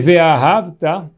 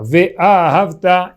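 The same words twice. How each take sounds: First: The stress falls before the final syllable. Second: The stress falls on the final syllable. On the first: It says the love already happened in the past. The speaker calls it wrong. "a gente está falando que a gente amou Hashem" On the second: It is a command to love. The speaker calls it right. "a pronúncia certa é que essa palavra ela é oxítona"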